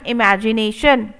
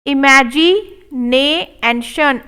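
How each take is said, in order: First: Said in the usual way. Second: Imagination drawn out; slow model take. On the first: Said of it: "normal repeat". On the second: Shown as a demonstration. Teacher modelling imagination slowly. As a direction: stretch it syllable by syllable. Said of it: "slow model take".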